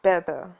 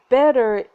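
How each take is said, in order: First: "better" with the final R dropped, ending in "uh"; low "better", crisp T and no R; posh British "better". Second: Loud, R-ended "better"; American "better". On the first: Dialect coach teaching the Duchess's accent, posh British "better". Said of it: "high-class British dropped the R". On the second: Dialect coach showing what to avoid, American "better". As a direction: say "better" with the R sounded at the end. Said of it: "better isn't better". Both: Shown as a demonstration.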